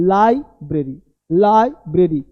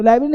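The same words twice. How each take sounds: First: "लाइब्रेरी" as LAI, then bre-ree; correct pronunciation. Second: "लाइब्रेरी" squashed into lai-bree; wrong pronunciation. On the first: Teacher models library for students, correct pronunciation. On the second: Teacher rejects the common slip, wrong pronunciation. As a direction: swallow the middle of "लाइब्रेरी", quick lai-bri. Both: Shown as a demonstration. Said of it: "तो लाइब्रेरी नहीं".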